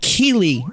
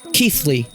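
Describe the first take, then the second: First: The name is said without a 'th' sound. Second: The name is said with a 'th' sound. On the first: The speaker calls it wrong. "I've been pronouncing it Jeff Keighley for like the last like eight years" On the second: The speaker calls it right. "it's apparently Keith, Keithley, like T H"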